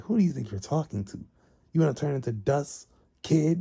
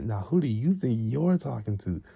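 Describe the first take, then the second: First: Higher-pitched, mock-menacing challenge; indignant threat. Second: Raised pitch, stress on "you"; indignant comeback. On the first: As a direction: square up to a cheeky kid. Acted threat in a quarrel. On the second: Retold or imitated. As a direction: throw the challenge back, leaning on "you". Rival throws the challenge back.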